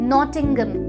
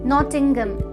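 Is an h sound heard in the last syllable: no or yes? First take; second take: no; no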